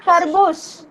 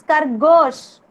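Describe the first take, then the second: First: Khargosh with an oo in the last syllable, "khargoosh"; mispronounced khargosh. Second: Khargosh with a long o in "gosh"; corrected khargosh. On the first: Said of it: "Not khargosh". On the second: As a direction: slowly model khargosh with a round "goash" ending. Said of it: "It's khargosh". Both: Shown as a demonstration.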